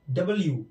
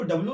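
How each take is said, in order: First: डब्ल्यू as "double-you", falling; correct W name. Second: डब्ल्यू squeezed, with b and l run together; wrong W name. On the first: Teacher correcting how learners read W, correct W name. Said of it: "इसको डबल बोलना है". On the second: Teacher showing a common mistake, wrong W name. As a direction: say डब्ल्यू as "dablu", losing the "you". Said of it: "इसको डब्ल्यू नहीं पढ़ते हैं". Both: Shown as a demonstration.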